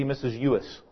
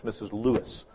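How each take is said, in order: First: "Ewis" said with the L dropped; small child's "Missus Ewis", no L; childish mispronunciation. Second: Said in the usual way. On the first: Retold or imitated. Kindergartners naming their teacher, "Ewis" without its first L. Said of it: "For those who can speak, that's Missus Lewis". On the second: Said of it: "For those who can speak".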